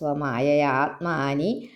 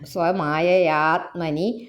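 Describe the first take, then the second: First: The vowel after 'tm' is long. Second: The vowel after 'tm' is short. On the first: The speaker calls it wrong. "ഞാൻ വായിച്ചപ്പോൾ തെറ്റിയ" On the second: The speaker calls it right. "ആത്മനി ആത്മാനി എന്നില്ല കേട്ടോ"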